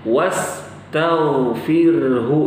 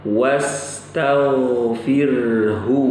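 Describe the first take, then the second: The two takes are said the same way.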